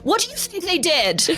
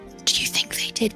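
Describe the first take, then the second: First: It is said loudly. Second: It is said quietly, almost whispered.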